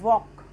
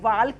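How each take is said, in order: First: The L sound is left out. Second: The L sound is clearly pronounced. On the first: The speaker calls it right. "उसको हम बोलते हैं वॉक" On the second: The speaker calls it wrong. "वाल्क नहीं होता"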